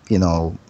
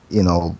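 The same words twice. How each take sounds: The two takes are said the same way.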